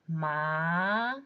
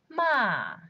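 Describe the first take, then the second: First: The pitch rises from mid to high. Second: The pitch falls sharply from high. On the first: "And in second tone" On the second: "Fourth tone"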